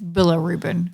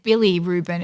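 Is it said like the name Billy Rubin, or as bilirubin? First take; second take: bilirubin; Billy Rubin. First: It sounds like the single word bilirubin. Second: It sounds like the two-word name Billy Rubin. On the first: The speaker calls it right. "It's Bilirubin" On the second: The speaker calls it wrong. "I said Billy Rubin"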